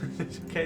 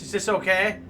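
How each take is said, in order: First: It is said quietly. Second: It is said loudly.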